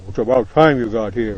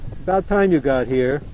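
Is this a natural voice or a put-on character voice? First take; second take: put-on; natural. First: It is said in a put-on character voice. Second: It is said in his ordinary natural voice. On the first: The speaker is talking as another character. "I got to find a voice of Mister H so I can tell them apart" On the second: The speaker is talking as himself. "that doesn't sound like too much like Mister H. That sounds like [name]"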